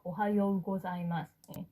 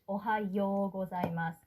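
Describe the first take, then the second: First: The final vowels merge into one long o. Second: The final vowels are sounded separately as o-u. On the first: The speaker calls it right. "And same for the formal language" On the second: The speaker calls it wrong.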